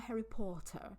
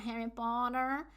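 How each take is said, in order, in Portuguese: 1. Isso é falado com sotaque britânico. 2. Isso é falado com sotaque americano. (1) "aqui eles falam Harry Potter" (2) "O americano fala Harry Potter"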